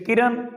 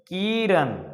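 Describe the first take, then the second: First: The first vowel is said short. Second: The first vowel is held long. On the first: "छोटी की मात्रा" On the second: "जहां पे की देर तक रुक रहे हैं तो ये का पे बड़ी की मात्रा"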